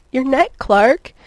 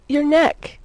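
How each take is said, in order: First: Slow, loud, high cry; pleading wail, lightly acted. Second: High, loud plea; urgent begging lift. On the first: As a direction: draw the plea out insistently, voice swooping up. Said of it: "she cried as she fitted herself". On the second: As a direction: beg for it, voice pitched up. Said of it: "Lois fairly begged". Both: A narrator's reading.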